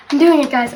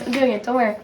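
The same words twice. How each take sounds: First: Said in the usual way. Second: Quieter, to herself; a much softer self-reassurance; softer repeat. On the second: Real, not acted. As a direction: say it again softly to yourself.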